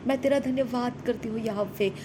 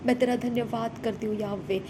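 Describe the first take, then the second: No difference in how they are said.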